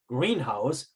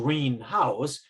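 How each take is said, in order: First: The stress falls on green. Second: The stress falls on house. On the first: It is a glass building for growing plants. "the compound word greenhouse, one stress" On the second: It is a house painted green. "which is just a house that's green"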